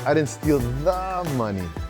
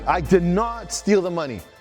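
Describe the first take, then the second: First: The stress is on "money". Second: The stress is on "not".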